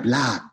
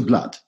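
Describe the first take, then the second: First: "blood" with a full, round, open vowel; full African blood. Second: "blood" in clipped standard English. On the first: Actor showing the company how "blood" was said in Julius Caesar, full and round. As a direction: say "blood" rich and full, East African style. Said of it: "It's so full". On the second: Actor contrasting the RP "blood" with the African one, plain and correct. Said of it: "which is correct". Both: Shown as a demonstration.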